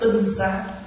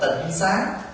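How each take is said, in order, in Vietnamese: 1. Âm tiết đầu có thanh bằng. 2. Âm tiết đầu có thanh thấp, có hầu hóa. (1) "nhưng mà đúng cách phát âm là tinh sáng" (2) "có khi mình đọc là tịnh sáng"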